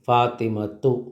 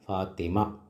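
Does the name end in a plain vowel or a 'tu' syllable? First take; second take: tu syllable; plain vowel. First: The name ends with a final 'tu' syllable. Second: The name ends with a plain 'a' vowel.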